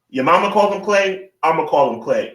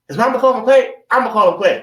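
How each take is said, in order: First: It is said in his normal voice. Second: It is said in a movie character's voice.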